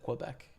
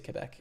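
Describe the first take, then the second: First: The name is pronounced the English way. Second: The name is pronounced the French way.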